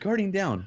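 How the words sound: It is said in a cheerful, upbeat way. The speaker calls it wrong. "Nolan Bot's a little chipper when he says Guardian down"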